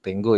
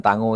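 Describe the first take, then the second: First: Tenggo said "teng-go", with e and hard g; correct pronunciation of Tenggo. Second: Tango read as spelt, "ta-ngo"; wrong pronunciation of tango. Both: Shown as a demonstration. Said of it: "bukan tango ya".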